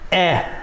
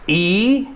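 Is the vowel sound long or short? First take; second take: short; long. First: The vowel is short, not the letter's name. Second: The vowel sounds like the letter's name. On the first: "and then the short sound" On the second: "We'll say the long sound and then the short sound"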